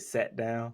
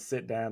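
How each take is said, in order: First: The vowel is a Southern e sound. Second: The vowel is a standard short i. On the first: "they say set down" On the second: "instead of saying sit down"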